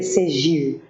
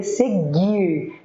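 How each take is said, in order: First: "segir" with a zh sound, se-ZHIR; soft G. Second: "seguir" with a hard g, se-GHIR; intended "seguir" drawn out with a hard G. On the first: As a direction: say "segir" with G like French J. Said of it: "a pessoa não queria escrever segir". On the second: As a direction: say "seguir" with G as in "gato". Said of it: "a pessoa queria escrever seguir". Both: Shown as a demonstration.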